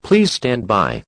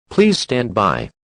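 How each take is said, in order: Both takes have the same delivery.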